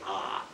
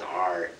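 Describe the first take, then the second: First: The letter is said as an open ah. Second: The letter is said with a strong r sound. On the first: This is the proper way people here say it. "We say ah, very properly" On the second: This is how Americans and West Country people say it. "You say your R's R"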